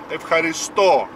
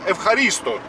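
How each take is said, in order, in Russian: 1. Ударение падает на последний слог. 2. Ударение падает на слог перед последним. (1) "на последний слог, на последнюю букву «о»" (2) "точно так же произносят «эвхаристо» очень часто"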